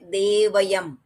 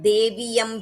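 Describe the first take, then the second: First: The vowel after dev is a short a. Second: The vowel after dev is a long ee. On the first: The speaker calls it right. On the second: The speaker calls it wrong.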